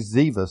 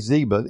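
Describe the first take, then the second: First: The middle consonant is a V sound. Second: The middle consonant is a B sound. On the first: The speaker calls it right. "the B is to be pronounced as a V" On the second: The speaker calls it wrong. "And I say Ziba"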